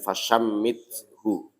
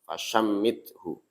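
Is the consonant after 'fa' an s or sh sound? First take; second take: sh; sh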